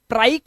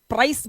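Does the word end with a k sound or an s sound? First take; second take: k; s. First: The word ends with a k sound. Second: The word ends with an s sound. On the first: The speaker calls it wrong. "प्राइक नहीं बोलेंगे" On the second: The speaker calls it right. "इसे प्राइस बोलेंगे"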